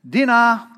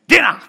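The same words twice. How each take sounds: First: The word is called out in a casual tone. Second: The word is called out in a commanding tone. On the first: Coming is optional. "To them, that sounds like, I could go to dinner, or I could keep reading my book" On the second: Come right now. "It just depends on my tone as to how much they should come now for dinner"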